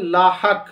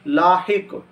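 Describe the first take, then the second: First: लाहक as laa-hak, with a; common mispronunciation. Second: लाहिक as laa-hik, with i; correct pronunciation. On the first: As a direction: say लाहक with short a after h. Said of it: "ये तलफ़्फ़ुज़ दुरुस्त नहीं है". (लाहक, हे पर ज़बर के साथ) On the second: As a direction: say लाहिक with short i after h. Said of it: "सही तलफ़्फ़ुज़ है". (लाहिक, हे के नीचे ज़ेर) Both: Shown as a demonstration.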